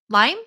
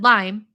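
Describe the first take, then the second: First: The pitch rises on the word. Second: The pitch falls on the word. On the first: It asks whether the flavor is lime. "Rising tone, I'm asking the flavor" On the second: It states that the flavor is lime. "which is a falling tone"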